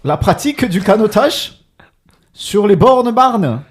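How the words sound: It is read with a German accent. "je vais te la lire avec l'accent allemand"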